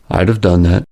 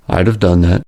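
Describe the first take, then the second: First: Would is contracted and the vowels are dropped. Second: The same.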